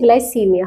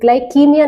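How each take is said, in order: First: The consonant after 'gly' is an s sound. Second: The consonant after 'gly' is a k sound. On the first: The speaker calls it right. "नहीं ग्लाइसीमिया" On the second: The speaker calls it wrong. "ग्लाइकीमिया नहीं"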